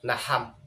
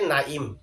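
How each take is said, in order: First: Both vowels are a, with an h between. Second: The first vowel is a, the second is i. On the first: "আইনকে হা দ্বারা পরিবর্তন করে" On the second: "আইনের মধ্যে জের দিয়ে"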